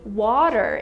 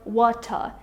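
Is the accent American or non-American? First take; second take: American; non-American. First: It is said with an American accent. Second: It is said with a non-American accent. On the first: The speaker calls it right. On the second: The speaker calls it wrong.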